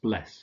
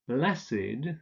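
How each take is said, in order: First: It is said with one syllable, ending in 't'. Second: It is said with two syllables, ending in 'id'. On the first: It is used as a past participle. "the past participle would be pronounced bless" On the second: It is used as an adjective. "We say learned"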